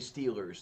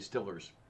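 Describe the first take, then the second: First: The first vowel is a long 'ee' sound. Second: The first vowel is a short 'i' sound. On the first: "the way they say Steelers" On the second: "They say Stillers"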